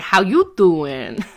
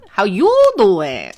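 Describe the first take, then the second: First: Slow, drawn-out Brooklyn how you doing; a lightly voiced Brooklyn greeting, stretched; a hint of a Brooklyn accent, drawled. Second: Slow, louder Brooklyn how you doing; a hint of a Brooklyn accent, drawled and louder. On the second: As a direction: lean into the Brooklyn greeting, stretched. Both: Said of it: "in Brooklyn, it's like".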